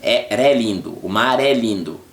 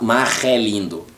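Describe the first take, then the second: First: "mar é lindo" with a tapped R into "é"; tongue-tip linked R. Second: "mar é lindo" with a throaty R before "é"; wrong guttural R. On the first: Teacher demonstrating R before a vowel, tongue-tip R. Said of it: "pronounced with the point of the tongue". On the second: Teacher showing what not to say, guttural R. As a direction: rasp the R of "mar" in the throat, unlinked. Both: Shown as a demonstration.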